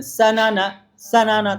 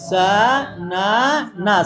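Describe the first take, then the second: First: Said in the usual way. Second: সা না না stretched very slowly, each syllable long-drawn; dragged-out reading. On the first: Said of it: "না, টান দিয়ে পড়া যাবে না". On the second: Retold or imitated. Teacher mimicking students who drag the reading, very slow. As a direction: drawl সা না না like a beginner pulling every syllable. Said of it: "ছেলেরা একটু টান দিয়ে পড়বে প্রথমে".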